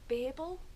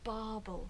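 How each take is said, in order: First: The first vowel is short, like 'babble'. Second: The first vowel is long, like a sheep's 'baa'. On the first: This is the speaker's own preferred way. "I want to call it babel" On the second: It refers to the sheep on the hat. "given the fact there's sheep on it, it should be barbel"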